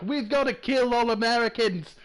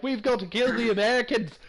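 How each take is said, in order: First: Put-on a lazy, lightly done Scottish accent, pitched higher; a weak try at Scottish, shouted at Americans. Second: Put-on a second lazy, lightly done Scottish accent, pitched higher; a weak Scottish battle cry at Americans. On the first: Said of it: "Was that Scottish?". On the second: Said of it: "They come over here like".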